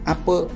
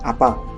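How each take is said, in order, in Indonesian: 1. Kata itu diakhiri vokal schwa netral. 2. Kata itu diakhiri vokal a terbuka. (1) "Bahasa Besemahnya"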